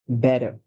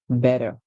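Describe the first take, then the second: First: The middle consonant sounds like a soft d. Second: The middle consonant sounds like a soft d.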